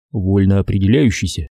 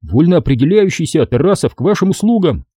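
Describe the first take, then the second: First: Said in the usual way. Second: Лёгкая тень бравого офицерского рапорта; отчеканить по-военному, подражая поручику. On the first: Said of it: "звучало как-то солиднее". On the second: A narrator's reading. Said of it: "старательно подражая поручику". (мальчик старательно копирует поручика, бодро)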